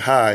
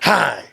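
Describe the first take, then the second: First: The greeting sounds plain and friendly. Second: The greeting sounds rude and offensive.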